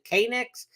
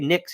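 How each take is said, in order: First: The initial K sound is pronounced. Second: The initial K is silent. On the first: This is how the Korean owners say it. "I actually think they pronounce it K-Nix" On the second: This is how it is said in the US. "we'll say Knicks here in the U S"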